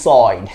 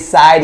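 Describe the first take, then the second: First: The vowel sounds like 'oy'. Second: The vowel sounds like 'eye'. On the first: "is soid" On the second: "The way I say side"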